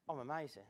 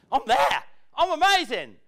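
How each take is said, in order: First: I'm amazing said much softer and lower, deflated; unconvincing I'm amazing; limp, half-hearted. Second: I'm amazing said louder and higher, proud; sincere proud I'm amazing; confident claim. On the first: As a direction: mumble it without belief. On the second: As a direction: own it out loud. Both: Shown as a demonstration. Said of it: "No, I don't mean like that".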